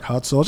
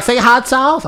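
First: Put-on "Hot sauce" in his plain New York accent. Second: High, loud mimicked request; imitated excited woman. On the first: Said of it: "'Cause of your accent". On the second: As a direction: demand it in a raised mock-female voice. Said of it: "She was like".

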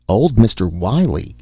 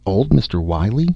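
First: Blank, puzzled repetition; mildly dumbfounded question; stupid echo. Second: Questioning lift at the end; mildly bemused silent question; puzzled inner thought. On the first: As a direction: echo it in dull astonishment. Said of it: "echoed Doctor Parris stupidly". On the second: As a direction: wonder it to yourself, rising. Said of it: "Miss Beaver thought". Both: A narrator's reading.

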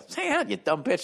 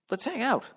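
First: High, mocking, rising insult; hammed-up obnoxious invite; rude. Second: Meek, high, soft invitation; mock nervous asking; timid. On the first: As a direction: toss it off like a jerk. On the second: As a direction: ask it shyly, unsure. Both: Shown as a demonstration. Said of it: "Don't say it like that".

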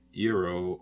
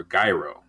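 First: Gyro with a y sound at the start; gyro as "yee-ro". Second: Gyro with a hard g and long i; gyro as "guy-ro". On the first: Asking how the word is said. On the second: Offering the other pronunciation. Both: Shown as a demonstration.

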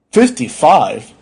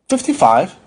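First: Slow, loud, disbelieving repeat; stunned doctor, stretching the words; appalled echo. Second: Patient's short answer, pitched up; higher voice, simple reply; matter-of-fact answer. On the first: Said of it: "The doctor stared in horror". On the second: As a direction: answer simply, falling at the end. Patient simply answers his age. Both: Acted.

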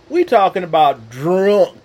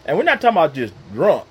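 First: Put-on drunk drawn out long and louder as druuunnnk; stretched drunk. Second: Said in the usual way. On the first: Shown as a demonstration. Preacher stressing how drunk his uncle was, drawn-out drunk. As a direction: lean hard on drunk and stretch it out. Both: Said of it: "Put two U's and two N's and a K".

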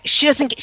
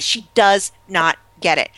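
First: Said in the usual way. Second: Slow, spaced-out "does not get it"; "does not" drawn out for emphasis; stress on NOT. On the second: Real, not acted. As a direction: spell out "does not" word by word, slowly. Restates with the contraction spelled out.

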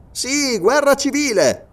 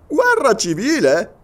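First: High, slow GUERRA CIVILE, falling at the end; drawn-out, declarative "guerra civile"; emphatic confirmation. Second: GUERRA CIVILE echoed as a high question; raised, questioning "guerra civile". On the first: Sergeant confirms civil war. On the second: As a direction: query "guerra civile" in surprise. Listener repeats news as question. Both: Acted.

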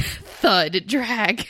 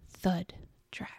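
First: Thud drawn out low and heavy, then Drag; more chilling. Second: Thud and Drag whispered softly. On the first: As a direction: stretch Thud. Drag. deep and ominous. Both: Shown as a demonstration. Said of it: "How can I make that more chilling?".

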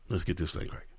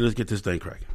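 First: Much softer, lower repeat; hushed echo. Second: Said in the usual way. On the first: Shown as a demonstration. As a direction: drop to a hush on the echo.

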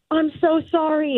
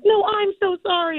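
First: Apologetic [name]. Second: Much higher, flustered fan apology; out-sorry the star, pitched way up. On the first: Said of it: "her being like". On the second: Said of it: "And I'm like". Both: Retold or imitated.

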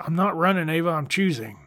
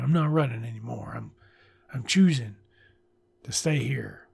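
First: A hint of mockery, a bit higher; mocking quote. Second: Earnest reading. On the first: Reviewer mocks the cheesy line with light scorn. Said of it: "Nobody talks like this". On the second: Shown as a demonstration. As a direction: say it like you mean it. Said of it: "of course it's a good line".

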